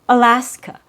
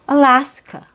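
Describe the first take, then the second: First: Only the middle vowel is full; others are reduced. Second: The same.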